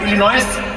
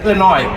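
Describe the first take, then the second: First: The word ends with an s sound. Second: The word ends without an s sound. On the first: The speaker calls it wrong. "मैं कहा इलिनॉयस" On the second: The speaker calls it right. "एस is silent"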